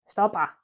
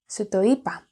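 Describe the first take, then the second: First: The words are squeezed into one short contracted word. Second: Every word is said in full, uncontracted.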